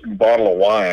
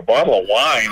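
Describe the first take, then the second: First: Said in the usual way. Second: Retold disbelief on "Bottle of wine"; incredulous echo. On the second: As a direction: echo "Bottle of wine" back as a puzzled question. Echoes the offer back in disbelief.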